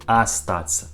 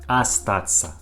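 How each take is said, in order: The two takes are said the same way.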